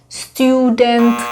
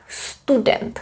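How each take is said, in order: First: The word is said with English vowels. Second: The word is said with Czech vowels. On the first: The speaker calls it wrong. "if you pronounce them in the English way" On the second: The speaker calls it right.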